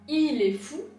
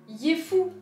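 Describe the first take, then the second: First: The words 'il est' are said as two syllables. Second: The words 'il est' merge into one syllable 'yé'. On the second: "qui deviendra yé fou"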